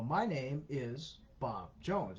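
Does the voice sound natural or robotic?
robotic. It is said slowly in a robotic voice.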